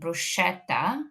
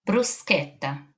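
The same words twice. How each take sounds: First: The middle sound has no hard k. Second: The middle sound has a hard k. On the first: The speaker calls it wrong. "that is not correct" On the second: The speaker calls it right. "Ch, k"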